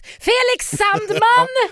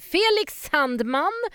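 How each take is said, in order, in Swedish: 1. Namnet ropas högt med hög energi. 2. Namnet sägs i normal, lugn volym.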